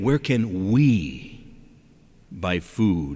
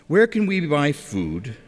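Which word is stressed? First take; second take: we; none. First: The word 'we' is strongly emphasized. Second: No word is given special emphasis. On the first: "and then I'm going to emphasize something... Don't miss those two little letters that make up the word we" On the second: "I'm going to say it one time just in an ordinary voice"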